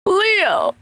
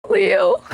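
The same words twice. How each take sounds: First: "Leo" lifted much higher, as if calling out; higher called name. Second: Said in the usual way. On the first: Shown as a demonstration. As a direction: call "Leo" upward to get his attention. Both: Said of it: "I'll go from".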